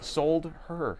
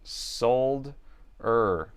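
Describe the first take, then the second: First: An h sound begins the second syllable. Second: No h sound begins the second syllable. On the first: "If I say it like that, that is creepy" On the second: "I would say sold er"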